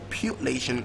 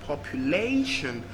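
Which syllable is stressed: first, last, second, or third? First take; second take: second; third. First: The stress is on the second syllable. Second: The stress is on the third syllable. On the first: "second syllable" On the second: "third syllable"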